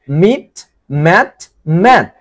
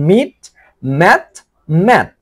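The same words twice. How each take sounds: The two takes are said the same way.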